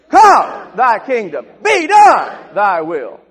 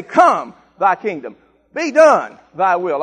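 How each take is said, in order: First: Leading the church in a warfare shout; militant shout. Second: Firm commands, verbs first; showing the congregation how to say it; militant declaration. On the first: Real, not acted. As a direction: yell it like a battle cry. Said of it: "I want you to get militant". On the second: Shown as a demonstration. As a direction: Come and Be done punched louder. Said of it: "On three, we're gonna say".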